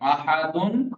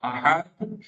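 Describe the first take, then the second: First: The word ends with a vowel and n. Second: The word ends on a bare d consonant. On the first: The word is read without stopping on it. "अहदुन हो जाएगा" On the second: The reader stops on the word. "हो जाएगा अहद"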